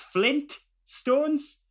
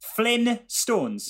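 First: The T sound is clearly pronounced. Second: The T sound is dropped from the word. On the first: The speaker calls it right. "There is a T" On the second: The speaker calls it wrong. "I don't say the T"

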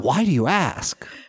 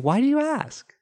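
First: It is asked in a suspicious, accusing tone. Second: It is asked in a warm, curious tone.

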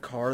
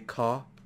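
First: The final R is pronounced, American style. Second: The final R is dropped, British style.

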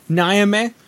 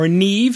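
First: The name is given an anglicized pronunciation. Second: The name is given its Gaelic pronunciation.

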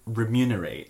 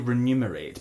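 First: The M comes before the N. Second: The N comes before the M. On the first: The speaker calls it right. "tell me what it is" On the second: The speaker calls it wrong. "People always say remunerate because, like, money, numbers"

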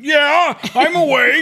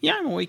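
First: It is said in a defensive, aggressive tone. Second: It is said in a calm, relaxed tone.

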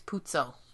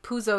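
First: The middle consonant is a dz sound. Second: The middle consonant is a plain z sound. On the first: The speaker calls it right. "you have double Z's, you say it like, duh" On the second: The speaker calls it wrong. "I don't think Puzo is the way you say it"

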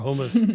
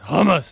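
First: The word is said plainly, without gusto. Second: The word is said forcefully, with gusto. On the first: The speaker calls it wrong. "or hummus" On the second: The speaker calls it right. "It's got some gusto in it"

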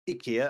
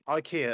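First: It is said with a Swedish pronunciation. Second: It is said with an English pronunciation. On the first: This is how the company and Swedes say the name. "as they say in the IKEA adverts, and probably in Sweden" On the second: This is how English speakers say the name. "as we say here in the English speaking world"

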